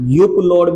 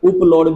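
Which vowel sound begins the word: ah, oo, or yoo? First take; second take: yoo; oo. First: The word begins with a 'yoo' sound. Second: The word begins with an 'oo' sound. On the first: "युप लोड भी पढ़ सकते हैं" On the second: "उपलोड भी पढ़ सकते हैं"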